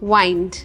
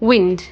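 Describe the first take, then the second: First: The vowel is long, as in 'wine'. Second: The vowel is short, as in 'win'. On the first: It means to wrap around or to finish. "പിന്നെ ഉള്ളത് വൈൻഡ്" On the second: It means moving air. "ഒന്ന് വിൻഡ്"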